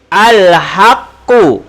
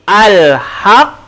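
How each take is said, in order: First: The word ends with a full final vowel. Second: The word ends on a bouncing doubled consonant. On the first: The reading continues without stopping. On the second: The reader stops at this word.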